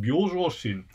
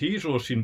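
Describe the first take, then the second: First: The word begins with the syllable byo. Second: The word begins with the syllable hei. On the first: It means an ordinary, everyday mind. The speaker calls it right. "but byozhoushin" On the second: It means a calm, stable mind. The speaker calls it wrong. "you shouldn't interpret it as heizhoushin"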